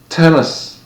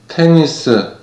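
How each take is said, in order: First: It is said with an English pronunciation. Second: It is said with a Korean loanword pronunciation. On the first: "처음에는 제가 쓰는 발음으로" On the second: "그 다음에는 한국에서 보통 사용하는 발음으로"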